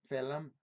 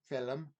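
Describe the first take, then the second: Both takes have the same delivery.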